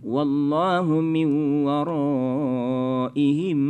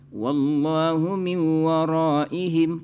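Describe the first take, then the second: First: The madd vowel in waraihim is held long. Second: The madd vowel in waraihim is held short. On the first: The speaker calls it right. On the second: The speaker calls it wrong.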